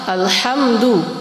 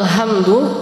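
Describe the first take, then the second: First: The h is a breathy sound from the throat. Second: The h is a light, ordinary h sound. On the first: It means all praise belongs to God. The speaker calls it right. "yang benar dibaca dengan ha" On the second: The meaning changes from praise to blame. The speaker calls it wrong. "nah itu maknanya jadi berubah"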